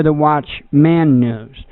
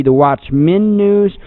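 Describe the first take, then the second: First: "Watchman" said as watch-MAN, full a as in "man"; slowly, "Watchman" with a drawn-out "man"; stressed singular MAN. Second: "Watchman" said as watch-MEN, short e in the last syllable; stressed plural MEN. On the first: Weighing two names for the news show, Watchman said slowly as watch-MAN. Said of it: "whether it was gonna be". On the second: Weighing two names for the news show, Watchman said as watch-MEN. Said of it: "deciding whether it was gonna be". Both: Shown as a demonstration.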